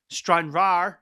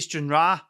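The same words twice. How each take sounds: First: The R at the end is pronounced. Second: The R at the end is dropped. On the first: The speaker calls it right. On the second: The speaker calls it wrong.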